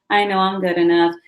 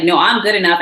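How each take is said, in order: First: Said in the usual way. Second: Firm, voiced self-assurance; spoken-out assertion. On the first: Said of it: "It's not just mental, like". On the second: Shown as a demonstration. Standing in your power and saying it, firm assertion. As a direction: assert it firmly, a bit louder. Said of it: "This is a communicative, action-oriented".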